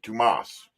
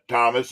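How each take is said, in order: First: The name is pronounced the Spanish way. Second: The name is pronounced the English way. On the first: "the Spanish version of Thomas is Tomas" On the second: "some people pronounce it Thomas"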